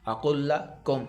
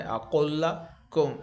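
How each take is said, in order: First: Said in the usual way. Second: اقل لکم very slow, with a light ک and a held لّ; thin kaaf, doubled lam. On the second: Shown as a demonstration. Quran teacher showing the light kaaf very slowly. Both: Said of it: "اس کو بریک پڑھنا ہے".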